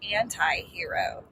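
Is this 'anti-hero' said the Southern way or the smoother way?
Southern. It is said with a Southern pronunciation. This is how the speaker would read it herself. "I would have said anti-hero"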